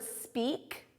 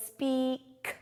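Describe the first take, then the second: First: Said in the usual way. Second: "speak" drawn out, final k split off; stressed final k. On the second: Shown as a demonstration. Teacher shows the K after the vowel team, "speak" stretched with a detached k. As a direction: stretch "speak", then release a separate crisp k. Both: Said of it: "we hear the K".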